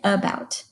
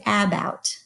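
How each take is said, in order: First: The first vowel is a weak uh sound. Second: The first vowel is a full, clear vowel. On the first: The speaker calls it right. "We say about. That uh sound is called the schwa" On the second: The speaker calls it wrong. "we don't say about"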